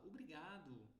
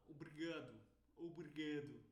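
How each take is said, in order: First: "obrigado" with open, full vowels; Brazilian pronunciation. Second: "obrigado" quick and closed; imitated European pronunciation. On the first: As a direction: give obrigado every syllable, Brazilian style. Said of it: "Um brasileiro fala". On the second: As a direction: squeeze obrigado as in Portugal. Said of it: "eles falam". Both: Shown as a demonstration.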